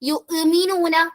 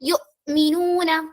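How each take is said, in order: First: The word flows smoothly with no catch after 'yu'. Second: The sound is briefly cut off after 'yu'. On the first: The speaker calls it wrong. "എന്ന് ഓതരുത്" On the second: The speaker calls it right. "ഒരു കട്ട് ചെയ്യുന്നത് പോലെയാണ് കേൾക്കുക"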